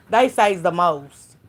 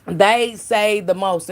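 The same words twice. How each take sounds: First: Drawn out slowly; slow emphatic. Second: Even slower repeat; slower emphatic. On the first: Live-stream host drawing it out slowly. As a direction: stretch it out for emphasis. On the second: Repeating it slower to the chat. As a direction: lean into every word. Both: Shown as a demonstration.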